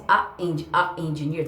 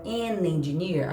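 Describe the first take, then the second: First: A held apart, a gap before engineer; paused a. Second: An glued onto engineer in one smooth slow sweep; linked an. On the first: Teacher showing the class the choppy wrong way. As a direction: break after a, then engineer. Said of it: "Fica, a, a, fica pausado". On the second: Teacher showing the class the linked form. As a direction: slide An engineer together as one word. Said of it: "tá vendo que gruda melhor?". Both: Shown as a demonstration.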